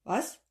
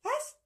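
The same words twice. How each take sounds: First: A quick startled question; mild startled what. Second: Very high squeaky little voice; tiny creature mimicking the question; squeaky echo. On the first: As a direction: jolt out the word. Startled professor. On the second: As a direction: squeak the word back. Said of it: "antwortete sie". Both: A narrator's reading.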